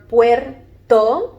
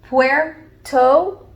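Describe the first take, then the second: First: It is said the Spanish way, in two syllables. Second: It is said the English way, in two syllables. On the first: "in English and in Spanish, you have two syllables" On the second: "in English and in Spanish, you have two syllables"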